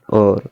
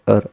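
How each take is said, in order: First: The word is said with an 'or' vowel. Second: The word is said with an 'ar' vowel. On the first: The speaker calls it wrong. "Not sound or" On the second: The speaker calls it right. "correct pronunciation and correct sound ar"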